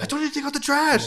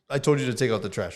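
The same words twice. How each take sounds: First: It is yelled loudly and forcefully. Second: It is spoken at a calm, normal volume. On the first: It feels like an attack on the listener. "but if I yell it at you" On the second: It is a mild reminder. "That doesn't sound so bad"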